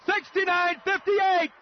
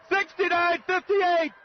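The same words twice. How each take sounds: The two takes are said the same way.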